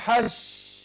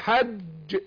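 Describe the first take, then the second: First: The j is softened into a hissing sh. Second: The j is a full stop, sound held back. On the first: The speaker calls it wrong. "لكن في ناس تقول حش" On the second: The speaker calls it right. "بيقفل الصوت والنفس مع الحنك الايه الاعلى فوق، فاقول حج"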